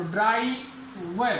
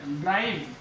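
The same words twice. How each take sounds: First: ड्राई व split slowly into "draa-ee" and "va"; sounded out in parts. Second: Said in the usual way. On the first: Shown as a demonstration. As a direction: break ड्राई व before the final V. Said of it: "आ और ई". (ड्राई व, आवाज़ें अलग-अलग करके धीरे) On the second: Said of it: "तो ड्राई व".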